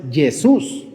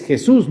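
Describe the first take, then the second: First: "Jesús" slowly with a Y for the J; wrong Y sound. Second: "Jesús" with a throaty J; correct Spanish J. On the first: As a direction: say "Jesús" as yeh-SOOS, drawn out. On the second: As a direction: say "Jesús" firmly as heh-SOOS. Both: Shown as a demonstration. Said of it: "no es Jesús".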